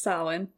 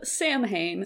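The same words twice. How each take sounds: First: The word is said the Gaelic way. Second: The word is read as it is spelled. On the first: The speaker calls it right. "But it's Samhain" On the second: The speaker calls it wrong. "it's spelled Samhain"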